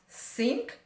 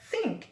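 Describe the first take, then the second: First: The word begins with an s sound. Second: The word begins with a th sound. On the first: The speaker calls it wrong. "some may pronounce" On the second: The speaker calls it right. "instead of"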